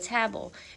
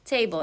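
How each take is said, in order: First: The first vowel is a short A, tab. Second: The first vowel is a long A, tay. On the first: The speaker calls it wrong. "instead of" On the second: The speaker calls it right. "it's tay because the A doesn't have a little consonant friend next to it"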